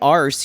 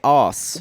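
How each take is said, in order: First: It is said with an American accent. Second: It is said with a British accent. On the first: The speaker calls it wrong. "You don't say arse" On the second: The speaker calls it right. "You say os"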